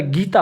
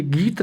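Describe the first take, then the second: First: गीता said with its long final aa; गीता, the final vowel held to its full length; correct full form. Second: गीत said short, with no final vowel; गीत with the last vowel dropped; wrong short form. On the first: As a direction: sound out the ending of गीता clearly. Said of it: "गीता होता है". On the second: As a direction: clip it to गीत, ending on the t. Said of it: "गीत नहीं होता है". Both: Shown as a demonstration.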